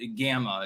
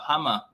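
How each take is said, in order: First: It starts with a hard English G sound. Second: It starts with a rasping, throaty H-like sound.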